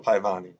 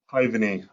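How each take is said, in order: First: "Paivani" with the middle syllable stressed; stress on second syllable. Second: "Paivani" with the first syllable stressed. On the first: Learner trying out Estonian "Paivani", stressed on the middle syllable. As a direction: lean on the "va" in "Paivani", full open vowel. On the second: Learner correcting the emphasis, "Paivani" stressed on the first syllable. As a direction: hit "Pai" in "Paivani", let "vani" go light. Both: Shown as a demonstration. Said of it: "putting the emphasis on the wrong syllable".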